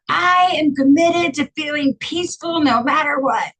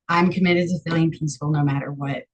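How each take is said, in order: First: It is screamed very loudly. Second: It is spoken firmly at a normal volume. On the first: "Or it could be screaming in the shower" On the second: "you say it like you mean it"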